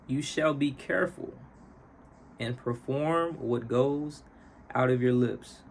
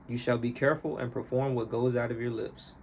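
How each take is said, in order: First: It is read at a normal pace. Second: It is read at a faster pace.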